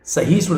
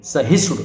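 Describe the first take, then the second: First: सहिष्णु as "sa-hee-shnu"; long hi. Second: सहिष्णु as "sa-hish-nu"; short hi. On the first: Teacher showing the mistake, सहिष्णु with long "ee". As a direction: lengthen the middle vowel of सहिष्णु. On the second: Teacher correcting the word, सहिष्णु with short "i". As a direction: keep the middle vowel of सहिष्णु short. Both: Shown as a demonstration. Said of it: "सहिष्णु नहीं".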